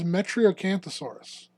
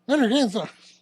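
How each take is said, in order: First: The name is said at an ordinary pace. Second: The name is said quickly and sped up.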